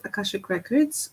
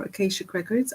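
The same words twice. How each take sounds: First: Akashic said a-KASH-ic, a as in cash; Akashic with a short a. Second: Akashic said a-KAY-shic, a as in cake; Akashic with a long a. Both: Shown as a demonstration. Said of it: "whichever way you prefer to say it".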